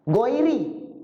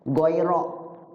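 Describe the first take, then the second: First: The word ends with an i vowel. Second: The word ends with an a vowel. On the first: "Ada yang baca itu J R" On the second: "dibaca nasab. Nasab itu fathah"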